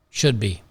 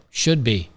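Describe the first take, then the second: No difference in how they are said.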